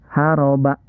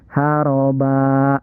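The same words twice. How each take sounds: First: The final vowel is cut short. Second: The final vowel is held long. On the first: The speaker calls it wrong. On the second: The speaker calls it right. "Dibaca panjang dua ketukan"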